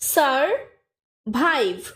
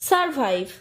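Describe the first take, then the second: First: The syllables are said separately with gaps. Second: The syllables are joined smoothly without gaps.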